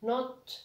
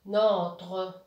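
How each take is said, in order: First: NOTRE split as not, then re; spell-it-out reading of NOTRE in two pieces; syllable by syllable. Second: NOTRE drawn out as one louder word; slow, firm model reading of NOTRE; blended word. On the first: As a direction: break "Notre" after a vowelless T. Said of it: "حطها في السكون". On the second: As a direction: stretch "Notre" slowly, joined up. Reads the blended word after the split. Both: Shown as a demonstration.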